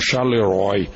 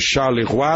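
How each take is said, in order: First: The name is said the English way. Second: The name is said the French way. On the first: The speaker calls it wrong. "está sendo pronunciada aqui no Brasil como" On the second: The speaker calls it right. "A cidade de Charleroi"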